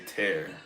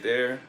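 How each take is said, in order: First: It starts with a plain 't' sound. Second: It starts with a 'th' sound. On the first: "if they can't pronounce the th and they say tear" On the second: "the way like most people say there"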